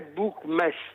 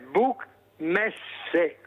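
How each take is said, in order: First: The final e of Messe is silent. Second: The final e of Messe is sounded. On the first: The speaker calls it wrong. "non è Buchmesse" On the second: The speaker calls it right. "è Buchmesse, perché ... le parole si pronunciano tutte come in italiano"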